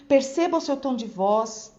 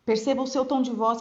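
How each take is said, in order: First: Lively rising-falling tune on "perceba o seu tom de voz"; with intonation. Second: Dull, level lecturer's delivery; sleep-inducing monotone. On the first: Teacher showing colleagues an engaging voice, with intonation. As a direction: lift "perceba" and carry energy through to "voz". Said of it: "fale mesmo com entonação". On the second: Teacher imitating a boring college professor, monotone. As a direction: drone it out on one even note. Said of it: "professor na faculdade que falava desse jeito". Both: Shown as a demonstration.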